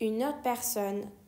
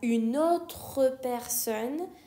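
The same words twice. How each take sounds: First: The final 'tre' of 'autre' is dropped. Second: The final 'tre' of 'autre' is fully pronounced. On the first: "میگم une autre une autre personne" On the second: "به جای اینکه بگم une autre personne"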